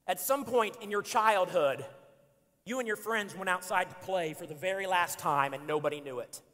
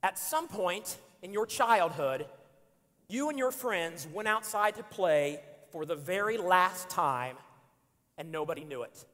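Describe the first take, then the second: First: Read aloud. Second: Slow, deliberate second reading; slow solemn reading; slower reread. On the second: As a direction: let each word land. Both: Shown as a demonstration. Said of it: "I'm gonna read it again".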